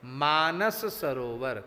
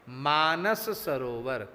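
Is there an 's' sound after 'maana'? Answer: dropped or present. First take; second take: present; present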